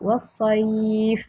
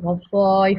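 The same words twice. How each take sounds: First: The word is read softly and smoothly. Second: The word is read harshly, not smoothly. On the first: The speaker calls it right. "dibaca secara lembut juga" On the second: The speaker calls it wrong. "kita tak boleh baca was-sayf, tak ada macam tu"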